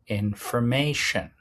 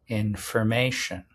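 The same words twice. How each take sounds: The two takes are said the same way.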